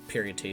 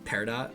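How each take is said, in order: First: The word sounds like 'period' followed by 'tee'. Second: The word ends in a short 'dot' sound. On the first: The speaker calls it wrong. "Dude, I'm a mess" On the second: The speaker calls it right. "I'm sure that's all it is"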